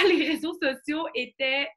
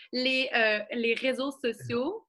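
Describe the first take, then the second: First: Said in the usual way. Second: Les réseaux sociaux, said slowly and spaced out; slowing down. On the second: Real, not acted. Catching herself talking fast to viewers, slower. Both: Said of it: "je parle trop vite".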